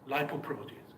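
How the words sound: It is said with an English pronunciation. The speaker calls it right. "keep the pronunciation right"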